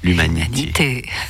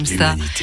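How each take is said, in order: First: It is said in a normal speaking voice. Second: It is said in a deep, intense voice.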